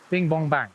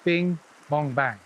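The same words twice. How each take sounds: First: There is a short pause after bing. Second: There is a medium pause after bing. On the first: The mend lands far away, by the leader. "I want to put a mend in right by the leader" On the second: The mend lands in the middle of the line. "closer to me, like the middle of the line"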